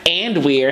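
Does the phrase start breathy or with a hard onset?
hard onset. It starts cleanly without an audible breathy onset. The speaker calls it wrong.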